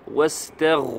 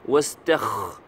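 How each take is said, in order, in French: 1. Le son est un gh sonore, guttural. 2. Le son est un kh sourd, rauque. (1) "Non, c'est Wastagh. Roin" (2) "Il ne faut pas dire Wastakh"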